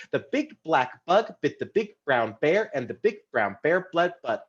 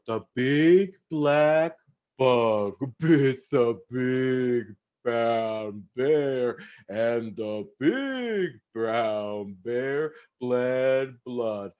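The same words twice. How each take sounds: First: A little faster. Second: Very slow and drawn out. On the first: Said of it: "A little faster". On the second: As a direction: stretch every word slowly. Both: Shown as a demonstration.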